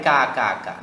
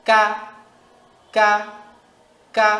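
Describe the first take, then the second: First: Said in the usual way. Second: Short, crisp "কা", each set apart; strong release on "কা", cut short; hard, forceful ka. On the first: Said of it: "না". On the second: Shown as a demonstration. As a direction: push the k of "কা" out hard. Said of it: "একইভাবে".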